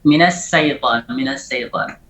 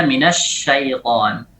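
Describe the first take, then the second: First: "syaitan" with sh thinned to s; shin like sin. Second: "syaitan" with a clear full sh, drawn out; correct shin. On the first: Teacher shows the misplaced shin, s-like sound. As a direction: say "syaitan" as saitan. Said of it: "mirip seperti sin". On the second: Teacher gives how it should be read, true shin. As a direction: spread the sh in "syaitan", never an s. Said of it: "Seharusnya dibaca". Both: Shown as a demonstration.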